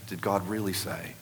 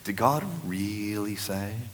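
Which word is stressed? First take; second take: none; really. First: The words are said without special emphasis. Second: The word really is strongly emphasized.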